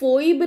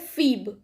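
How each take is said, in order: First: The vowel sounds like 'oy', as in 'foib'. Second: The vowel sounds like 'ee', as in 'feeb'. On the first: The speaker calls it wrong. "उसको फोइब नहीं पढ़ते" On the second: The speaker calls it right. "उसको पढ़ते हैं फीब"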